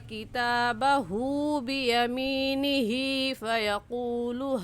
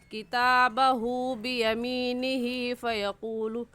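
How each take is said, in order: First: The final vowels are drawn out long. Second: The final vowels are cut short. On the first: The speaker calls it right. "एक अलिफ के बराबर खींचेंगे" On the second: The speaker calls it wrong. "जितना खींचने का हक है उतना नहीं खींचते हैं"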